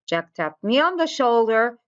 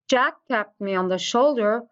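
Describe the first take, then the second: First: The stress falls on the word shoulder. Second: The stress falls on the word Jack. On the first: It was on this body part, not somewhere else. "the main concern of the sentence is where did he tap me, which was on the shoulder" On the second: This person did it, nobody else. "we are emphasizing on Jack himself"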